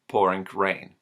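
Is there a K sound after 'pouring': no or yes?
yes. A K sound follows the ending of 'pouring'.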